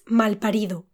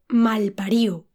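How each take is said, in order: First: The d before the final vowel is pronounced. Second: The d before the final vowel is dropped.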